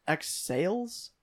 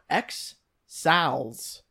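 First: "X Sales" with the long a of sails; alternative pronunciation. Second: "X Sal's" slowly, second word rhyming with pals; trying a pronunciation. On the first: Reader guessing at a poster's username, offering "X Sales". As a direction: try it as "X Sales", questioning. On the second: Reader guessing at a poster's username, trying "X Sal's". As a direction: sound out "X Sal's" with a short a. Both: Shown as a demonstration. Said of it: "Or is it X Sales?".

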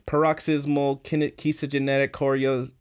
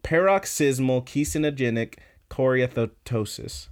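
First: Halting, botched go at "paroxysmal kine-, kesogenetic choreo-"; stumbling pronunciation. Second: Deliberate, measured "Paroxysmal kesinogenic choreoathetosis" without breaking off; careful full pronunciation. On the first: Host struggles with a long medical term, stumbling on "kesogenetic choreo-". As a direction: trip over "kesogenetic", getting it wrong and breaking off. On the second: Host finally manages the long medical term, "Paroxysmal kesinogenic choreoathetosis" said carefully. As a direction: get through "Paroxysmal kesinogenic choreoathetosis" whole, word by word.

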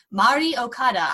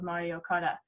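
First: "Mari Okada" restated louder and more distinctly; careful name correction. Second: "Mari Okada" run together, low and soft; name rushed and slurred. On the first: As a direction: redo "Mari Okada" carefully, each part clear. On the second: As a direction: mumble "Mari Okada" too fast, as one blurred word. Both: Real, not acted. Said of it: "speaking too fast and getting her name wrong".

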